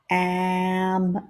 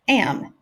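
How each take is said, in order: First: The sounds are drawn out slowly. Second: The word is said quickly as one unit. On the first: "I'm going to stretch out the sounds" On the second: "and then I'm going to say it fast"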